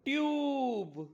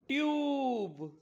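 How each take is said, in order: First: It is one syllable with a long 'yoo' vowel. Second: It is one syllable with a long 'yoo' vowel.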